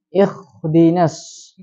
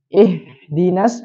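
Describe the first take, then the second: First: The h sound is a raspy, scraping kh. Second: The h sound is a soft, smooth breath. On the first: "atau kho" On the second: "Mengganti huruf ha menjadi ha"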